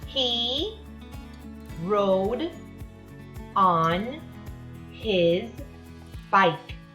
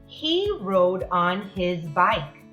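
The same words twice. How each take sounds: First: It is read at a normal pace. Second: It is read a little faster.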